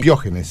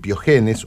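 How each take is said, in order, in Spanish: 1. El acento cae en la sílaba 'o'. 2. El acento no cae en la sílaba 'o'.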